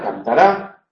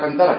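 First: The stress falls on the last syllable. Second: The stress falls before the last syllable.

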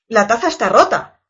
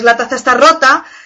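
First: It is said in a neutral, informative tone. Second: It is said in an annoyed, angry tone.

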